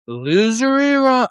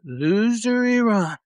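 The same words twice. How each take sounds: First: Much higher, slow, louder taunt; mocking Trump. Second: Much higher, slow, savoured taunt; mocking Trump again. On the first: Mocking a president's threat against Iran in a slow high taunt. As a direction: ham up a leader's schoolyard insult. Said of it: "although he threatens". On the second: Enjoying repeating the president's insult of Iran, slow and high. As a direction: relish the jeer, drawing it out. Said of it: "I love to do it".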